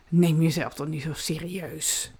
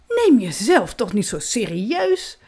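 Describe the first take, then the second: First: It is said in a casual, offhand tone. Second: It is said in a proud tone. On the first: "Of doe dat heel nonchalant" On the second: "Of heel trots"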